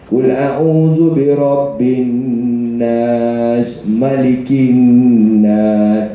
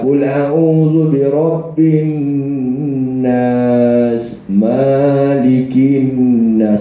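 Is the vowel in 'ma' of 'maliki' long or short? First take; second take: short; long. First: The vowel in 'ma' is short. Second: The vowel in 'ma' is long. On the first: The speaker calls it right. "mak mesti nak pendek. ... Itu baru betul" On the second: The speaker calls it wrong.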